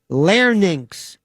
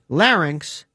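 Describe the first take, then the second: First: The word has an altered, nonstandard pronunciation. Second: The word has its standard pronunciation.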